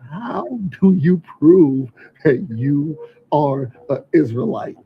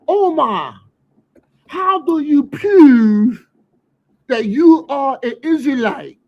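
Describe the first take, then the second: First: It is said in his plain voice. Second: It is said in a Baltimore accent.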